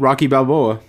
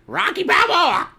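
First: It is said in his normal voice. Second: It is said in a squawky parrot voice.

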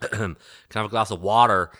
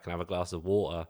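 First: It is said in an American accent. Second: It is said in a Cockney accent.

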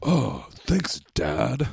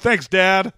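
First: It is said in a Snake impression voice. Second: It is said in his normal voice.

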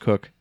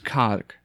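First: The name rhymes with book. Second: The name rhymes with rock. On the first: The speaker calls it right. "it's actually pronounced Cook" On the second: The speaker calls it wrong. "It's like pronouncing somebody's last name as K-O-C-H. It's Cock"

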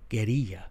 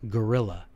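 First: It is said with a Spanish pronunciation. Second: It is said with an English pronunciation.

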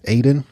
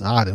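First: The name has a common English-style pronunciation. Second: The name has an Arabic-style pronunciation. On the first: "sometimes people pronounce it Aden" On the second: "in Arabic it's pronounced Aden"

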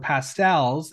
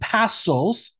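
First: It is said the American way. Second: It is said the British way.

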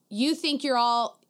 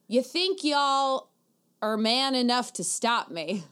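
First: It is said in a plain, unaccented voice. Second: It is said with a Southern twang.

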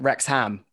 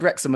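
First: The ending is a full 'ham' sound. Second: The ending is reduced to a weak 'um'. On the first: The speaker calls it wrong. "Americans often say the ham of words when they shouldn't" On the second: The speaker calls it right. "I'm glad you said Wrexham"

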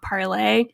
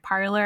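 First: The word ends with an 'ay' sound. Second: The word ends with an 'er' sound. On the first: This is closer to the French original. "and not Parlay" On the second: This is how people commonly say the name. "people were pronouncing it Parler"

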